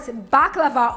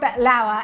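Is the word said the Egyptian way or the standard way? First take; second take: standard; Egyptian. First: The word is said the standard way. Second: The word is said the Egyptian way.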